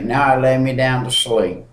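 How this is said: It is recited flatly, by rote. The words are said without meaning them. The speaker calls it wrong. "It's one thing to just say"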